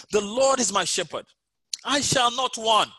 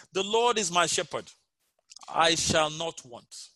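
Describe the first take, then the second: First: Raised and louder, slowing on "I shall not want"; proclaimed reading. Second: Unhurried, measured scripture reading; slow reading. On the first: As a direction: proclaim the psalm with conviction. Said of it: "So I'll read it". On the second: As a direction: let each word land slowly. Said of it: "I'll read it slowly as we go through". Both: Shown as a demonstration.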